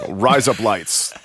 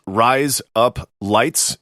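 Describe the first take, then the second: First: "rise up lights" run together as Australian "razor blades"; slow, put-on Australian accent. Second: "rise up lights" said slowly, word by word; slowly spaced phrase. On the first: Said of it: "it sounds like an Australian accent saying razor blades". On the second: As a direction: space out "rise up lights" in one's own accent. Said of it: "For an Australian accent, the phrase I say". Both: Shown as a demonstration.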